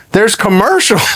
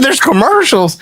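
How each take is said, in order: First: Slightly raised, emphatic announcement; matter-of-fact reveal. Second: High-pitched disbelieving question; incredulous echo. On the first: Caller reporting the endorsement ads, retold emphatic reveal. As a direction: break the news as a statement. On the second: Son learning of dad's ads, retold incredulous echo. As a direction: throw the news back in astonishment. Echoes caller's news in disbelief. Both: Retold or imitated.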